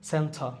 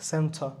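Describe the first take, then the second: The two takes are said the same way.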